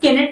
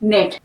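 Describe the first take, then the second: First: The word begins with a k sound. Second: The word begins with an n sound. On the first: The speaker calls it wrong. "केनेट नहीं होगा" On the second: The speaker calls it right. "के silent है"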